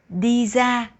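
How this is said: Ra begins with a z sound. "in the North, people will pronounce R as Z"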